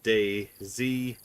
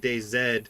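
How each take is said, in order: First: The name ends with the letter name zee. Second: The name ends with the letter name zed. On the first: "If you pronounce it Day Z, like spell it out. Day space Z E E" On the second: "you're probably Canadian if you're saying that"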